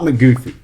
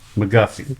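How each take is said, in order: First: The middle vowel sounds like 'goo'. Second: The middle vowel sounds like 'guh'. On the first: The speaker calls it wrong. "Not McGoofy" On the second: The speaker calls it right.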